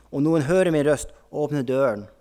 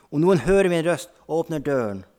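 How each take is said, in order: The two takes are said the same way.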